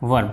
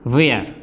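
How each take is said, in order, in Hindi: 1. स्वर छोटा और मध्य का है, 'wer' जैसा। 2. स्वर लंबा और खुला है, 'wair' जैसा। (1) "इसका उच्चारण करते हैं वर" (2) "बहुत से लोग इसको क्या बोलते हैं"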